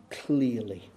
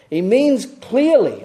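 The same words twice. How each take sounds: First: "clearly" said softly, lower and savoured; fond quiet word. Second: "clearly" slow, high and loud; stress on clearly. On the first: Real, not acted. Preacher fondly savouring his favourite word, softly. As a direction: linger lovingly on "clearly". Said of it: "I love that word in the N I V". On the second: Shown as a demonstration. Preacher explaining Paul's word, slow weight on "clearly". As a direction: lean hard on "clearly".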